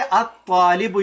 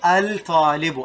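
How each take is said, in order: First: The L is silent, blending into a doubled T. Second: The L is clearly pronounced before the T. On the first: The speaker calls it right. "when you say at-talibu" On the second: The speaker calls it wrong. "you don't say al-talibu"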